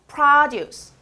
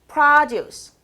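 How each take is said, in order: No difference in how they are said.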